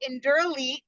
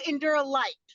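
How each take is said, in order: First: The name ends with the sound 'elite'. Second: The name ends with the sound 'light'. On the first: The speaker calls it right. "Enduro Elite is how you say it" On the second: The speaker calls it wrong. "they call it Enduro Light"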